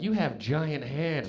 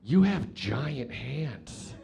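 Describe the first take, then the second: First: Slow suggestive line. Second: Slow amazed line. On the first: Girl's suggestion retold. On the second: First version, amazed. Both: Retold or imitated.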